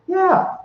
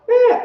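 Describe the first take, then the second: First: It is said in a normal voice. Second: It is said in a squeaky put-on voice.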